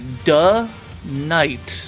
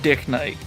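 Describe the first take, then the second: First: The first part is a short 'duh' sound. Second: The first part is said as 'dick'. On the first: The speaker calls it right. "you would pronounce it as duh Knight" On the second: The speaker calls it wrong. "not not Dick Knight"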